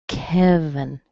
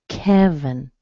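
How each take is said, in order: Both takes have the same delivery.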